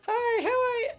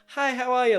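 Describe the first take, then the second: First: It is said in a squeaky Mickey Mouse voice. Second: It is said in a normal speaking voice.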